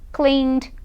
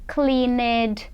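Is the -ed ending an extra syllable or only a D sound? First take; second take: D only; extra syllable. First: The ending is said as only a D sound. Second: The ending is said as an extra syllable. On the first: The speaker calls it right. "você fala só o D, tira o E da pronúncia" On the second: The speaker calls it wrong. "Muita gente fala assim, pronunciando o E, E D, mas não"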